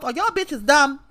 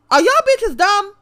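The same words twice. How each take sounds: First: Said in the usual way. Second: Louder, higher repeat of the question; outraged yell. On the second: Real, not acted. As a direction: hit it again, much higher and louder.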